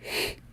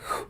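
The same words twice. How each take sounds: First: The rough sound is made with unrounded lips. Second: The rough sound is made with rounded lips. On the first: "a regular X sounds like" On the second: "when it's rounded, it sounds like"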